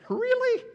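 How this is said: It is said in an emphatic, forceful tone.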